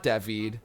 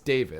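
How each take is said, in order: First: The name is said with a French pronunciation. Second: The name is said with an English pronunciation. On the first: This is how a French teacher said the name. The speaker calls it wrong. "my teacher called me David. My name is not David" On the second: This is how the owner says his own name. The speaker calls it right. "My name is David"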